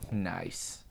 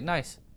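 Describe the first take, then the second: First: It is said slowly in a weird, creepy way. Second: It is said quickly and casually, in passing. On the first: The joke is dwelt on suggestively. "if you say it in the weird, creepy way" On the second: The joke is acknowledged lightly and let go. "do you just want to pass it by, just be like"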